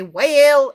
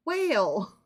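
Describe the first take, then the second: First: "whale" cried out loud and stretched; exaggerated, drawn-out "whale"; mock mispronounced wail. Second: Said in the usual way. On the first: Shown as a demonstration. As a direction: ham up "whale" as a loud comic howl. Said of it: "Just kidding". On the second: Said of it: "It says whale".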